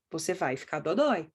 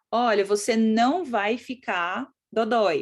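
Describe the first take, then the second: First: Lower, matter-of-fact statement ending on a falling "dodói"; low, falling verdict on "dodói"; what the child hears. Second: Put-on slow, spaced-out "não" as if reassuring a child; deliberate demo sentence with a weighted "não"; stress on NÃO. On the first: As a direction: drop the voice and state "vai ficar" plainly. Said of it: "O que que você tá dizendo pra criança?". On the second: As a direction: lean slowly on "não", then let "dodói" fall. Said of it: "quando você fala assim". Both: Shown as a demonstration.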